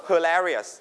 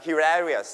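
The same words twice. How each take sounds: First: Hilarious with a schwa "huh" first syllable; American pronunciation. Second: Hilarious with a "hi" first syllable like he; British pronunciation. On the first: Teacher shows the class the American Hilarious. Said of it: "อเมริกันจะออกเสียง". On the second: Teacher shows the class the British Hilarious. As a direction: say Hilarious the British way, hee-LAR-ious. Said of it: "British จะเป็น he". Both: Shown as a demonstration.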